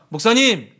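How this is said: It is said in a bright, cheerful tone.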